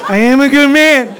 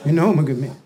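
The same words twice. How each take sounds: First: High, loud emotional wail; wailing affirmation. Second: Low, small-voiced and unsure; meek acted husband; meek self-assurance. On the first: Acted. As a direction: cry it out with full hammed-up emotion. Same words, now an emotional outburst. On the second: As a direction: say it timidly, half believing. Husband timidly answers the reassurance.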